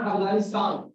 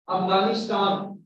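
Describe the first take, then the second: First: 'Afghanistan' with a Hindi T in the last syllable; wrong Hindi T. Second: 'Afghanistan' with an English T in the last syllable; correct English T. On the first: Teacher showing what to avoid, Hindi T. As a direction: make the T of 'Afghanistan' Hindi-style. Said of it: "not Afghanistan". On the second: Teacher modelling the word, English T. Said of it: "So you should pronounce". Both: Shown as a demonstration.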